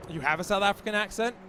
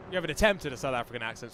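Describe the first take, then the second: First: Questioning, quick, with a rise at the end; teasing disbelief. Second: Lower, fast correction stressing "attempt"; teasing correction on ATTEMPT. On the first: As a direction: query the claim in playful disbelief. Teasing a co-commentator's accent claim. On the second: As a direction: correct them drily, landing on "attempt". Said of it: "is what you mean to say". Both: Real, not acted.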